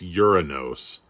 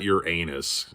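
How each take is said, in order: First: It does not sound like 'your anus'. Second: It sounds like the phrase 'your anus'. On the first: The speaker calls it right. "It's Uranus. That's how you say it. Think Thanos" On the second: The speaker calls it wrong. "it's not Uranus"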